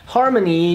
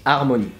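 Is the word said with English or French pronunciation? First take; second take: English; French. First: The word is pronounced the English way. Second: The word is pronounced the French way. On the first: "harmony just goes" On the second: "goes harmonie"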